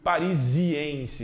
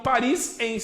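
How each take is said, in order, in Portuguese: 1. Uma vogal 'i' extra vem antes de -ense. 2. Diz-se sem vogal antes de -ense. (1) "Apareceu um izinho colando no meio ali" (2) "Mas fica esquisito, né?"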